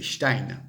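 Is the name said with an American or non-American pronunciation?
non-American. The name is said without an American pronunciation. The speaker calls it right. "C'est Stein"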